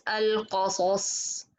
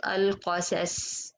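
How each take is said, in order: First: "القصص" with dark ق and both ص heavy; all letters heavy. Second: "القصص" with heavy ق but thinned s, alqasas; partly light mistake. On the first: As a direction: model "القصص", tongue back throughout. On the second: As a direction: show "القصص" losing the heaviness of ص. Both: Shown as a demonstration. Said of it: "because all of them is heavy".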